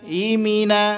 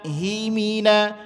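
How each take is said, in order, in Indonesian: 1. Bunyi H diucapkan samar dan sulit didengar. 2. Bunyi H diucapkan dengan tegas dan jelas. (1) "enggak jelas haknya itu" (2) "mesti tegas penyebutan hak itu"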